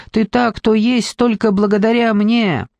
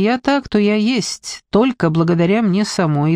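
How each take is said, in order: First: Higher-pitched, insistent put-down; scornful claim. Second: Confident objection. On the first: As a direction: hammer it home with scorn. Villain claims she made the ghost. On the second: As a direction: correct the claim with steady assurance. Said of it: "уверенно возразила Дженни". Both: A narrator's reading.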